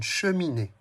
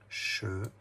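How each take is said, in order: First: Said in the usual way. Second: "Che-mi-né" in three separate syllables, long pause between each; syllabe par syllabe. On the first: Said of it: "Combien de syllabes dans cheminée". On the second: Shown as a demonstration. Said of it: "compte les syllabes". (« Che-mi-né » découpé syllabe par syllabe, avec de longues pauses)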